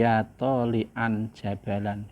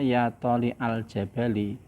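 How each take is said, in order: First: The words end in an -an sound. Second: The words end in an i vowel. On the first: The speaker calls it right. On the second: The speaker calls it wrong. "tidak dibaca"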